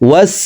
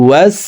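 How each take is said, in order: Both takes have the same delivery.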